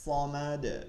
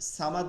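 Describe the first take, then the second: First: It begins with a heavy, emphatic s sound. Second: It begins with a plain, light s sound. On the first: The speaker calls it right. "কিন্তু সদ থেকে" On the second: The speaker calls it wrong. "সামাদ না"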